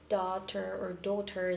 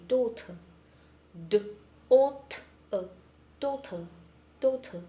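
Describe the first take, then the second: First: Daughter said with the R sounded at the end, /tɑtə˞/; American daughter with R. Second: Daughter said with a round aw and no final R, /dotə/; British daughter without R. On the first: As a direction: keep the final R in daughter. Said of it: "instead of saying". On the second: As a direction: drop the R at the end of daughter. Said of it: "they will try to remove the R sound". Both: Shown as a demonstration.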